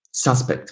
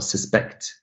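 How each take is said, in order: First: "suspect" as SUS-pect; the noun suspect, front-stressed; first-syllable stress. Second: "suspect" as sus-PECT; the verb suspect, end-stressed; second-syllable stress. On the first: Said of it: "stress falls on the first syllable". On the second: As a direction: lean on the last syllable of suspect. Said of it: "stress falls on the second syllable". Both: Shown as a demonstration.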